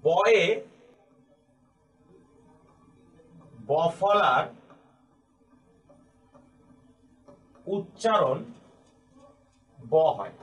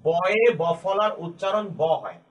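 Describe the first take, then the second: First: Each word set apart by long pauses; dictated word by word. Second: The whole rule read in one slow, even run; slow full rule. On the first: Teacher dictating the rule to students, word by word. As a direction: spell the rule out slowly as if writing it on the board. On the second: Teacher repeating the rule to students in one slow run. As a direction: say it through slowly so it sticks. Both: Shown as a demonstration. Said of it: "এই নিয়মটিকে আমি এভাবে বলতে পারি".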